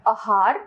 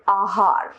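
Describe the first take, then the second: First: आहार with a short opening a; wrong pronunciation. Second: Said in the usual way. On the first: Shown as a demonstration. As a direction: say आहार as uh-haar. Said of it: "अशुद्ध रूप". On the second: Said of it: "इसका शुद्ध रूप".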